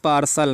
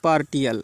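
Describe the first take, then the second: First: The middle is said with an 'sh' sound. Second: The middle is said with a 't' sound. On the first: The speaker calls it right. "इसको पढ़ना है पार्सल" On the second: The speaker calls it wrong. "Not पार्टियल"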